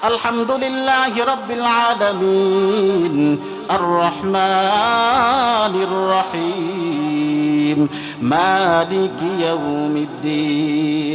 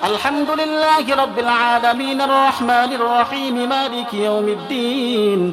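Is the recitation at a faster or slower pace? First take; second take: slower; faster. First: It is recited at a slower pace. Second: It is recited at a faster pace.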